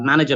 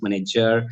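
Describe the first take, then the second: First: Said in the usual way. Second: Punjabi-accented "manager". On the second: Shown as a demonstration. Trainer showing mother-tongue influence, Punjabi-accented "manager". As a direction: bend "manager" into a Punjabi pronunciation. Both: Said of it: "mother tongue is Punjabi".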